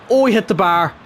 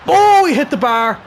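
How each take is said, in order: First: Said in the usual way. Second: Startled cry. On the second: Real, not acted. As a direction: yelp as the shot hits the bar. Opponent hits the bar.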